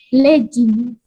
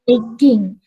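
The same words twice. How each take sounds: First: "legging" said LEJ-ing with a j; the common wrong legging. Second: "legging" said LEG-ing with hard g; correct legging. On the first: Teacher shows students the wrong "legging". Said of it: "itu kurang tepat ya". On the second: Teacher models the right "legging" for students. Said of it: "ditambahkan dengan hubungan ing". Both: Shown as a demonstration.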